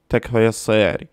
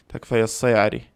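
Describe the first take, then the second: No difference in how they are said.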